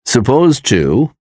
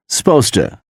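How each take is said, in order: First: Said in the usual way. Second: "supposed to" squeezed into SPOSE-tuh; casual blended "supposed to", sounding like sposta; reduced supposed to. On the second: Shown as a demonstration. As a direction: say "supposed to" as two beats, weak "tuh". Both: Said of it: "is pronounced as".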